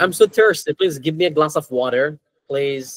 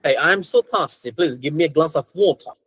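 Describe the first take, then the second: First: American accent demonstration, r kept in water. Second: British accent, slow demonstration with r-less water. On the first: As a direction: model American English for learners. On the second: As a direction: slowly model British English, silent r in water. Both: Shown as a demonstration. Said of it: "they usually say".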